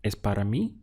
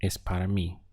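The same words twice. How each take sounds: First: Es para mí? with a clear rise on mí; question tune. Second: Es para mí. said level, falling on mí; statement tune. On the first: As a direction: turn it into a question by lifting mí. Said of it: "But as a question". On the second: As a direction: state it flatly, closing down on mí. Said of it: "the same thing as a statement". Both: Shown as a demonstration.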